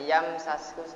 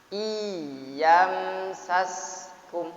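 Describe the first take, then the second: First: The consonant is said short without pressing. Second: The doubled consonant is pressed and held. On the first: The speaker calls it wrong. "Tidak boleh" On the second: The speaker calls it right. "Jadi sengaja ditekankan"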